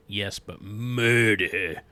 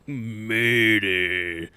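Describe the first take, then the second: First: Murder drawn out slow and loud; ominous weight on murder; stress on murder. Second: Murder said alone, loud and slow; mock-ominous emphasis on Murder; stress on Murder. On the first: Acted. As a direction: lean hard on murder, slowly. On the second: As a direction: hammer the single word Murder. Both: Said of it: "I love the emphasis on different words".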